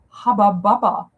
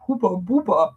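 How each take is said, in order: First: It is pronounced with an English pronunciation. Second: It is pronounced with a German pronunciation.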